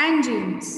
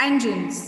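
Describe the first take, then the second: No difference in how they are said.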